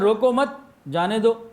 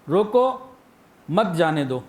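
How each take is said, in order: First: The pause comes right after the second word. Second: The pause comes right after the first word. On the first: Do not stop him, let him go. "मतलब बदल गया कि भाई रोकना नहीं है, जाने दो" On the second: Stop him, do not let him go. "इसका क्या मतलब है कि भाई इसको रोक लो, जाने ना देना"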